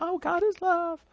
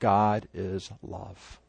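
First: It is said in a gushing, sentimental tone. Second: It is said in a firm, earnest tone.

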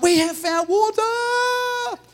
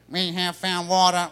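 First: It is said with lively passion and energy. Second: It is said in a flat Dalek-like robotic voice.

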